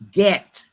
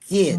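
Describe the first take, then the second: First: The final T sound is clearly sounded. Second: The final T sound is dropped. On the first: The speaker calls it right. "get with the T" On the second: The speaker calls it wrong. "they say get"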